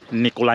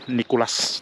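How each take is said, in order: First: The name ends on a vowel, no s. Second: The name ends with a clear s sound. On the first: This is how people in Andalusia say it. "Hindi sila gumagamit ng S" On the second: This is the standard Spanish form. "Nicolas dapat"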